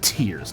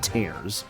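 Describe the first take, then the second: First: The vowel sounds like the one in 'fears'. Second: The vowel sounds like the one in 'bears'. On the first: It refers to crying. The speaker calls it right. "It actually was meant to be" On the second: It refers to ripping apart. The speaker calls it wrong. "not Tears ... like they showed the trailer like the ground tearing apart"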